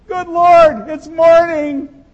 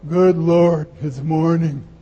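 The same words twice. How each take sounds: First: It sounds glad and delighted. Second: It sounds dismayed and grumbling.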